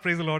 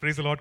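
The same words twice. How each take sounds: First: It sounds like an enthusiastic exclamation. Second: It sounds like a puzzled question.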